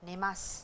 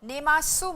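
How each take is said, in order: First: The final vowel u is dropped. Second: The final vowel u is fully pronounced. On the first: The speaker calls it right. "सु को थोड़ा छोटा करके नेमास बोलिए" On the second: The speaker calls it wrong. "नेमासु मत बोलिए"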